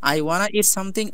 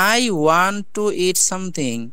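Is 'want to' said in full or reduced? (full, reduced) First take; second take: reduced; full. First: 'Want to' is run together into 'wanna'. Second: Both words of 'want to' are fully pronounced.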